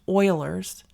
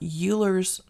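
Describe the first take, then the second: First: The name is pronounced unlike its spelling. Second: The name is pronounced the way it is spelled. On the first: The speaker calls it right. "you pronounce it like that" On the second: The speaker calls it wrong. "not Euler's"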